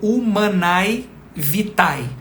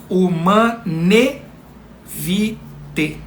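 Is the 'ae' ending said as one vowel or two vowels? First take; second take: two vowels; one vowel. First: The ending 'ae' is said as two vowels. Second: The ending 'ae' is said as one 'e'. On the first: The speaker calls it wrong. "algumas pessoas falam desse modo" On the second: The speaker calls it right. "o som vocálico pronunciado é somente do E"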